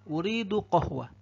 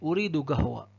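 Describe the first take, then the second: First: The word starts with a deep q sound. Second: The word starts with a hard g sound. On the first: "Saya pengen kopi" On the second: "Itu kalau Saudi"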